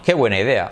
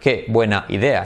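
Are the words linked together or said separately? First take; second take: linked; separately. First: The words run together without any breaks. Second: Each word is said separately with small breaks. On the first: The speaker calls it right. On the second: The speaker calls it wrong. "tampoco en español"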